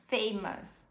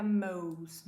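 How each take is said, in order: First: "famous" ending in a short us. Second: "most" as the wrong ending for famous. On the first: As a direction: end "famous" with us, not most. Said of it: "A gente fala us". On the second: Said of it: "Nunca most". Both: Shown as a demonstration.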